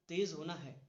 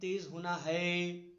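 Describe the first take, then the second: First: The word तेज is stressed. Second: The word है is stressed. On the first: The speaker calls it right. "मैंने कहा तेज होना है" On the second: The speaker calls it wrong. "अब है पे मैं ये नहीं कह रहा हूं"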